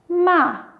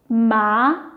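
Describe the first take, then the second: First: The pitch falls sharply from high to low. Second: The pitch rises from middle to high.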